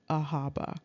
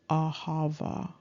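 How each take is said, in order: First: The middle consonant is a b sound. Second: The middle consonant is a v sound. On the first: The speaker calls it wrong. "this is not really pronounced Ahaba" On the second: The speaker calls it right. "the actual pronunciation is Ahava"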